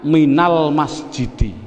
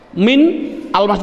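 First: Min is linked to al with a vowel. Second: Min and al are said without a linking vowel. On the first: The speaker calls it right. "harus dihidupkan biar berdoa. Bunyinya minal masjidi" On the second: The speaker calls it wrong. "Tidak boleh karena ini ada al alif mati"

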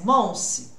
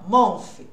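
First: The word ends with an s sound. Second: The word ends with an f sound. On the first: "É som de S?" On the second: "aí é som de F"

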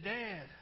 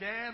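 First: The call sounds calm and unhurried. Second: The call sounds urgent and pressing. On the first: Nothing seems to be wrong yet. "didn't sound all that anxious" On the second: Something is wrong and help is needed. "a little bit more urgently"

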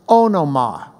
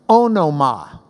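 No difference in how they are said.

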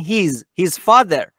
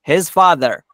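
First: The vowel in 'his' is long and tense. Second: The vowel in 'his' is short and lax. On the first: The speaker calls it wrong. "ایرانی ها میگن his father" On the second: The speaker calls it right. "در واقع آی در اینجا ای کوتاه تلفظ میشه"

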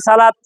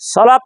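First: The first vowel is plain and open. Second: The first vowel is rounded and heavy. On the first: The speaker calls it wrong. "আমরা অনেকেই পড়ি সালাতিহীন" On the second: The speaker calls it right. "ঠোঁট গোল করে সামনে আনেন"

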